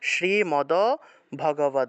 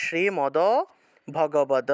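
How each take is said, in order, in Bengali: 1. d ধ্বনিগুলো পূর্ণ স্বরধ্বনি বহন করে। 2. d ধ্বনিগুলো পূর্ণ স্বরধ্বনি বহন করে।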